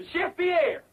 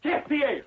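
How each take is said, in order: First: Higher-pitched repeated summons in fake French accent; French-accented call. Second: Put-on higher, grand French-accented announcement. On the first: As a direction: call the missing chef, French accent, more insistent. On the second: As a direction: present the star with a fake French flourish. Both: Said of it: "I forgot my French accent".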